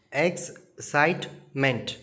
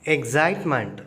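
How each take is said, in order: First: Excitement slowed into ex-cite-ment; syllable by syllable. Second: Said in the usual way. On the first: Shown as a demonstration. Teacher sounding out syllables for children, slowly. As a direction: tap out excitement in three slow beats. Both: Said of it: "three syllables".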